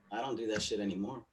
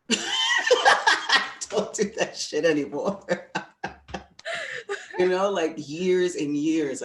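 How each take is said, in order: First: Said in the usual way. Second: Much higher, louder, slow, laughing through it. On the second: Real, not acted. Speaker laughing at host about the past, high and loud. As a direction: squeal it out laughing. Repeats line, then laughs.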